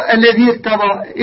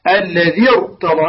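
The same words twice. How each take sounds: First: Higher, slow "الذي ارتضى" with a thin "irta"; thin out the ra of "الذي ارتضى" as a mistake; wrongly light ra. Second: Slow "الذي ارتضى" with a full, thick ra; heavy ra. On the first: Teacher shows students what not to say, light ra. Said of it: "لا نقول". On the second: Teacher shows students the correct way, heavy ra. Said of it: "هكذا تفخمها". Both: Shown as a demonstration.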